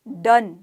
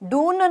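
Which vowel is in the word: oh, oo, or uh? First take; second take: uh; oo. First: The vowel sounds like a short 'uh'. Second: The vowel sounds like a long 'oo'. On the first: The speaker calls it right. "यहाँ पर ओ जो है वो अ का रूप धारण कर रहा है" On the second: The speaker calls it wrong. "डून नहीं बोला हमने"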